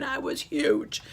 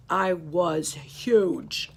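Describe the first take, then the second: First: I was huge, pitched higher and slower; higher emphasis. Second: I was huge, drawn out very slowly and louder; stretched emphasis. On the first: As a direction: lift I was huge up high in disbelief. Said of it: "repeated for emphasis". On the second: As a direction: savor every word of I was huge. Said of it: "emphasis on size". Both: Acted.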